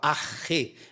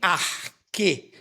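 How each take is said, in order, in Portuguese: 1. A consoante do meio é um som de h raspado. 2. A consoante do meio é um som de k forte. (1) "a forma erasmiana reconstruída, que a gente não fala arque, a gente fala arre" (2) "aí eu aprendi a falar em arque"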